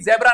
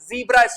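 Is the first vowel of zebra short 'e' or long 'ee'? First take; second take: short e; long ee. First: The first vowel is a short 'e' sound. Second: The first vowel is a long 'ee' sound. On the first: The speaker calls it wrong. "वो भी जेब्रा नहीं बोलना है" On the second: The speaker calls it right. "जीब्रा stripes"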